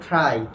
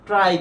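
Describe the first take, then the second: First: The t sound has a puff of breath. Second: The t sound is plain, without a breath. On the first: The speaker calls it right. "কি হবে বলতো? ঠ হবে। তাহলে এটার সঠিক উচ্চারণ হবে কি বলতো?" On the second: The speaker calls it wrong. "এখন এটার উচ্চারণ কিন্তু আমরা নর্মালি কি করি বলতো?"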